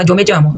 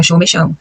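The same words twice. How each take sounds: First: Yo me llamo with a Colombian dy sound; a light Colombian yo me llamo. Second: Yo me chamo with an Argentine sh; a light Argentine sheísmo, yo me chamo; Argentine yo me llamo. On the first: Teacher imitating a Colombian saying yo me llamo. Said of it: "o colombiano fala". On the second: Teacher imitating an Argentine saying yo me llamo. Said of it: "o argentino fala". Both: Shown as a demonstration.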